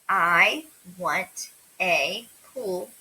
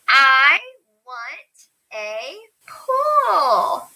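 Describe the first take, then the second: First: It is said calmly, like a statement. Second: It is said excitedly, with strong emphasis.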